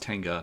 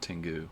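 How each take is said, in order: First: The name ends with an 'ah' sound. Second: The name ends with an 'oo' sound. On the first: The speaker calls it right. "It's Tenga" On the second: The speaker calls it wrong. "not Tengu"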